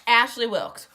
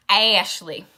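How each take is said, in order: First: Said in the usual way. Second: Louder, put-on Southern accent on Ashley. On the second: Shown as a demonstration. Showing listeners how the name is said, Southern accent. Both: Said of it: "You gotta say it with that Southern accent".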